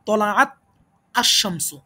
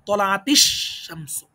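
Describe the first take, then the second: First: The two words are said separately, without linking. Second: The words are joined by an added i vowel.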